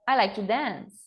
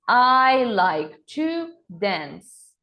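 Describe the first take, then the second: First: The sentence is spoken a bit faster. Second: The sentence is spoken very slowly. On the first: "Agora um pouco mais rápido" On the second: "bem devagar"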